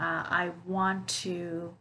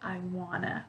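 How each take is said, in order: First: Each word is said fully and separately. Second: The words are reduced and run together.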